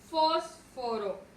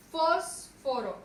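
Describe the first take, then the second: First: FÓS marcada en «fósforo»; acento en FÓS. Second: «Fósforo» muy lento, FÓS larga, pausa, luego «foro»; sílaba tónica FÓS separada. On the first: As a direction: carga la voz en la primera sílaba de «fósforo». («fósforo» con FÓS destacada) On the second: («Fósforo» partido tras la sílaba tónica) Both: Shown as a demonstration. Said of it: "Su mayor fuerza de voz recae en".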